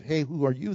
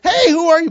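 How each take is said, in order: First: Low, soft, unalarmed question; not yelling. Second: High, loud alarmed shout; scared yell. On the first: Preacher wonders how Boaz really asked it, not yelling. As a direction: ask it quietly, without any exclamation. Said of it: "It's not. So I wonder what kind of". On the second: Preacher replays his first idea of scared Boaz, scared yell. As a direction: yell it out in sudden fright. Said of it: "he's scared. He's like". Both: Retold or imitated.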